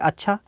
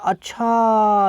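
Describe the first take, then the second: First: The word is said short and plain. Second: The word is said long and drawn out.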